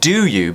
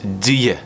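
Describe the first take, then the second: First: Both words are pronounced fully and separately. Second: The two words are squeezed into one syllable. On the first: "even do you becomes" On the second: "becomes do you"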